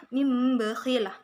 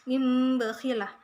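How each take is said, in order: Both takes have the same delivery.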